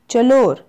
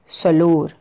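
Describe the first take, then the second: First: The word begins with a ch sound. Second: The word begins with an s sound. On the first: This is how other tribes say it. "the other as choke" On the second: This is how some tribes say it. "few tribes read it as soak"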